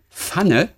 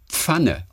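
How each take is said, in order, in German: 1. Es wird norddeutsch gesprochen. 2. Es wird streng standardmäßig gesprochen. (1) "Es heißt auch nicht Pfanne" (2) "sondern Pfanne"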